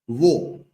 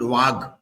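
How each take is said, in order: First: The word ends on a vowel, no g. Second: The word ends with a hard g sound. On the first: The speaker calls it right. "is how it is pronounced" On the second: The speaker calls it wrong. "It's not Wag"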